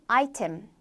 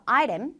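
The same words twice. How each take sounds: First: Item with a crisp T; British item, clear T; 영국식 item; British pronunciation. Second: Item with a flapped T, like aiRem; 미국식 item; American pronunciation. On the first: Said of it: "영국 영어에서는 item". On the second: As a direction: soften the T in item. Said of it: "미국 영어에서 item". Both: Shown as a demonstration.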